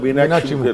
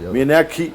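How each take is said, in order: First: The name has a Malayalam pronunciation. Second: The name has a Bengali pronunciation.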